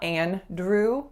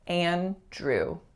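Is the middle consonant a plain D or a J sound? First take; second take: D; J. First: The middle consonant is a plain D sound. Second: The middle consonant is a J sound. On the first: The speaker calls it wrong. "it's not Andrew with a D" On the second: The speaker calls it right. "but a J sound like in jam"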